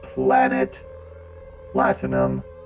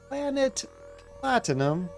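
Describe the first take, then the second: First: It is said in a robotic voice. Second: It is said in a normal voice.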